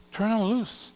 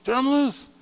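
First: Said in the usual way. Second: Rallying cry. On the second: Acted. Preacher urging on the youth group.

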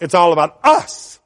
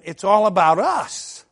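First: "us" punched louder after a short build; stress on US. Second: Said in the usual way. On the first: Real, not acted. Preacher correcting himself about the group, stress on "us". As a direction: land hard on "us" as the point.

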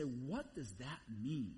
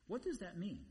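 First: Slow, lower "What does that mean"; pondering question. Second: "does" lifted, quicker "What does that mean"; pressing question. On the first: Preacher modelling a reader who stops to ask, pondering slowly. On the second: Preacher repeating the question to the congregation, pressing. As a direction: press on "does" as if needing an answer. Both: Acted.

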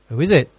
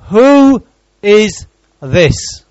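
First: Said in the usual way. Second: Slow, drawn-out and louder, leaning on who; dramatic question. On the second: Acted. Preacher voicing the crowd, slow ringing question. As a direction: let the crowd's question hang, stretching who.

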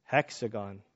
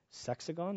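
First: "Hexagon" with a clear h, flat and sure; firm self-correction "Hexagon"; corrected word. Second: "sexagon" with an s, rising like a guess; unsure "sexagon", said as a question; "sexagon" fumbled with a rising tune; wrong word. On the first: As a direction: settle on "Hexagon" with an h. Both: Shown as a demonstration.

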